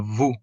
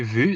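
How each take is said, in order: First: The vowel is an English 'oo' sound. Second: The vowel is a rounded French 'u' sound. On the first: The speaker calls it wrong. "they say it uh, vous" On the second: The speaker calls it right. "they don't say vu"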